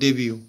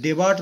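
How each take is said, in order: First: The word ends in a vowel, no t. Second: The word ends with a sounded t. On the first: The speaker calls it right. "এটা ডেবিউ বলতে হয় উচ্চারণের সময়" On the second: The speaker calls it wrong. "ডেবার্ট নয়"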